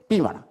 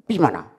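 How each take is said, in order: No difference in how they are said.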